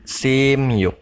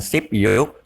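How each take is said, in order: First: The consonant before 'yuk' is an 'm' sound. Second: The consonant before 'yuk' is a 'p' sound. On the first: The speaker calls it right. "Simyuk bukan sipyuk" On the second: The speaker calls it wrong. "bukan sipyuk"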